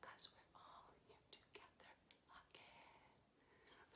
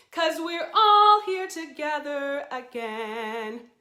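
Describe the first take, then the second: First: Soft whispered echo of the line. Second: Sung high and slow as the lead line. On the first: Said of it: "like an echo". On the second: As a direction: sing it for them to echo. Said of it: "you'll repeat it back to me". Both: Shown as a demonstration.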